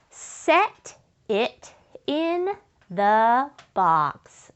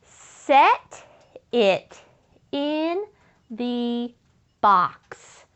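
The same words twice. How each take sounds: First: Slow, stretched reading of the sentence. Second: "Set" "it" "in" "the" "box" each said alone with pauses between; word by word. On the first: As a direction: drag each word out for the children. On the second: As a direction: chant it one word at a time. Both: Shown as a demonstration. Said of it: "say that with me".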